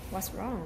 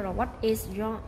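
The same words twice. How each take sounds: First: What's wrong run together in one flowing breath; the reduced what's wrong; linked contraction. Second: Said in the usual way. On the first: Shown as a demonstration. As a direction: blend what's wrong into one smooth phrase. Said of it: "mà mình sẽ làm what's wrong". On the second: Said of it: "không là what is wrong".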